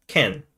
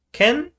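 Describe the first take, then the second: First: "Ken" with a falling, settled tune; one-word Singlish reply, "Ken" dropping down; Singlish answer. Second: "Ken" with a high rising questioning tune; one-word Singlish question, "Ken" lifted high. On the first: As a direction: answer "Ken" as a firm yes. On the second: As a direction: ask "Ken?" sharply up in pitch. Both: Shown as a demonstration. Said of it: "Singlish is complete with one word".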